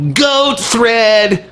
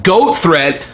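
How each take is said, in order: First: Higher, whiny mock of the tweet; pathetic mock voice. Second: Said in the usual way. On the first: Shown as a demonstration. Vlogger mocking the tweet as pathetic, higher and whiny. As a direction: make it sound pathetic. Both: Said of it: "It sounds pathetic".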